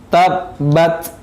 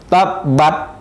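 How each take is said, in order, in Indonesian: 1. T terakhir dilepas dengan napas yang mengalir. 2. T terakhir dipotong tanpa napas. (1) "Yang benar udaranya mengalir" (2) "Tidak boleh bacanya tabbat"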